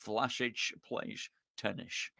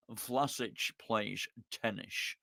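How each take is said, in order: First: "Vlasic plays tennis" as "Vlashic playsh tennish", lower, much softer, slow Scottish; Sean Connery with SH. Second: Lower, much softer, slow Scottish slur on "Vlasic plays tennis" with lisped S; Sean Connery impression. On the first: Retold or imitated. Repeating it for the chat with S and H, low slow Scottish Connery. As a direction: lean into the shushing Connery S. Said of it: "gotta be with the S and the H".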